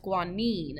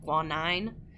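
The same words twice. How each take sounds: First: The last syllable does not sound like 'nine'. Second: The last syllable sounds like 'nine'. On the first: The speaker calls it right. "So now it's guanine" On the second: The speaker calls it wrong. "make it nine, like guanine"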